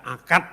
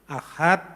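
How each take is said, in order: First: The middle consonant is a k sound. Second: The middle consonant is an h sound. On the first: This is how Javanese speakers say it. "Ahad dibaca akad" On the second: This is the original Arabic pronunciation. "huruf H itu dia baca K"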